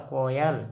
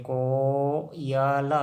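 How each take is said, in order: First: Said in the usual way. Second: coil broken into को-य-ल with a long को; very slow teaching breakdown of coil; sounded out slowly. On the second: Shown as a demonstration. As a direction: draw coil out syllable by syllable.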